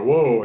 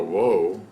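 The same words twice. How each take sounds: First: Whoa called out louder and higher; mock yell of whoa; hollered whoa. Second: Said in the usual way. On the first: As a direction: holler whoa like stopping a mule. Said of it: "he holler". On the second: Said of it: "Only mules stop when you holler".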